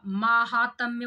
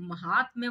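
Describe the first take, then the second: First: "महात्म्य" with a drawn-out first maa; reading an option's spelling. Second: "महात्म्य" with a short first ma; short opening syllable in "महात्म्य", long haa; reading another option's spelling. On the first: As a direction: say "महात्म्य" as maa-haa-tam-ya, long first vowel. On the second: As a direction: say "महात्म्य" as ma-haat-mya, short first vowel. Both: Shown as a demonstration. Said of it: "महात्म्य बोल रहा है".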